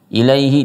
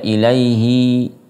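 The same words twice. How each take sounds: First: The final vowel is short. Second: The final vowel is drawn out long.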